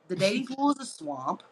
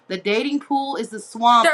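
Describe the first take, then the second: First: It is said at a normal volume. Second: It is said at a louder volume.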